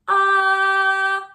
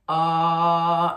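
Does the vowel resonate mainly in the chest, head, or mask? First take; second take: mask; chest. First: The vowel resonates forward in the face. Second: The vowel resonates low in the chest. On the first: "made in your mask" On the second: "made in your chest, that's like chest voice, low here"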